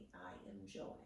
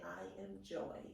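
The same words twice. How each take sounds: First: Soft whispered affirmation. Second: Said in the usual way. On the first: Shown as a demonstration. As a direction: breathe it out in a whisper. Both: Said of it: "you can say".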